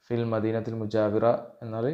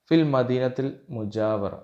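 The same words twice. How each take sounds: First: Said in the usual way. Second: Slow, deliberate Arabic line, a little louder; carefully spaced Arabic dialogue line; slow dialogue reading. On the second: Shown as a demonstration. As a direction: read it out slowly for students to repeat.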